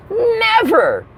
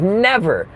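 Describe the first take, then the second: First: "never" pitched way up, then falling; stress on never. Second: Said in the usual way. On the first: Real, not acted. Comic insisting he has not seen this, "never" said very high. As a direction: hit "never" very high for emphasis. Repeats word for comic emphasis.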